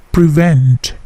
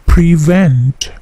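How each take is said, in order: First: "prevent" with a soft, unpuffed P. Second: "prevent" with a strong, puffed P; wrong P. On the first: Teacher showing the right, soft P in "prevent". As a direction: keep the P of "prevent" gentle, no burst. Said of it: "P-nya tidak plosif ya". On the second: Teacher showing the wrong, strongly puffed P in "prevent". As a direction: burst the P of "prevent" hard. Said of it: "P-nya tidak plosif ya, bukan prevent". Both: Shown as a demonstration.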